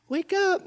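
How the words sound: It is said softly and gently. Someone is being woken tenderly. "like you would wake up a sleeping little baby"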